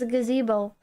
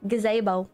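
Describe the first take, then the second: First: It is said in the speaker's plain accent. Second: It is said in an Australian accent.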